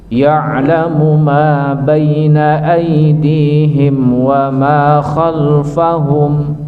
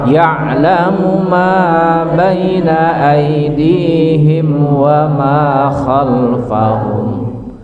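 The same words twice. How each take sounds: The two takes are said the same way.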